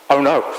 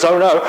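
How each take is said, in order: First: Said in the usual way. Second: Higher, emphatic mock dismay; lightly hammed-up exclamation of alarm; more emphatic. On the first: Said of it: "probably a little bit more emphatic than that". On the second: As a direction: act out a servant's alarmed "oh no". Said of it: "a little bit more emphatic than that".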